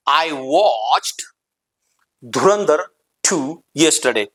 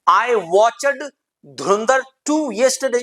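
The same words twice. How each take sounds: First: Watched in one syllable, "wotcht"; lower, measured, watched ending on a t; right pronunciation. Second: Watched in two syllables, "watch-ud"; wrong pronunciation. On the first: (watched को "वॉच्ट" जैसा बोलें) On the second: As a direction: say watched with an extra voiced syllable. (watched को "वॉच-अड" जैसा बोलें) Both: Shown as a demonstration. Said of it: "it's a wrong pronunciation".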